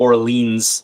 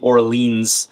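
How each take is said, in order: First: The name is said with an American accent. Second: The name is said with an American accent.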